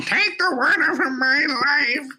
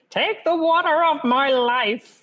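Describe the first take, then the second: First: High, slow hammed-up wail; mock wailing Mapes. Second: Put-on high, slow wailing old servant; wailing Mapes. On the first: Listener mocking the reading, high slow wail. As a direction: imitate the wailing servant for a laugh. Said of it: "you took away all of the intensity". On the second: A narrator's reading. Mapes to Jessica, high slow wail. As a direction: wail it out as the housekeeper.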